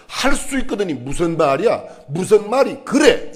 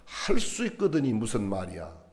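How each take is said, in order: First: "할 수 있거든이 무슨 말이야? 무슨 말이 그래?" snapped louder and higher, "무슨 말이 그래" slow and rising to a rebuke; mock scolding. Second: "할 수 있거든이 무슨 말이야" said slowly and softly, each word laid down calmly; slow, gentle reading. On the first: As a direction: play the wrong reading, Jesus as a scolding, irritated voice. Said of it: "이런 말 아니에요". ("무슨 말이 그래"를 높고 크게 꾸짖듯이) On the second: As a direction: read it slow and soft, as a puzzled, gentle question. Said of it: "이렇게 새겨보세요". ("할 수 있거든이 무슨 말이야"를 천천히 부드럽게) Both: Shown as a demonstration.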